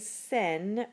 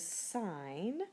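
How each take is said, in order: First: It rhymes with 'pin', with a short vowel. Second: It rhymes with 'line', with an 'eye' vowel. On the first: The speaker calls it wrong. "Please do not say sin when you see S I N" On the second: The speaker calls it right. "It is sine"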